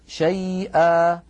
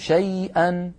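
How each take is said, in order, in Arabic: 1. تنتهي الكلمة بمدّ الألف الطويل. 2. تنتهي الكلمة بحركة قصيرة يليها نون. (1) "أما في الوقف شيئا" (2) "وفي الوصل تكون شيئا"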